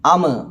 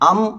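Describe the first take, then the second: First: The final m is released with a bounce. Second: The final m closes smoothly, with no bounce. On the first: The speaker calls it wrong. "മറിച്ച് എങ്ങനെയല്ല" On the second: The speaker calls it right. "അം, ഇം, ഉം എന്ന പാരായണം ചെയ്യുക"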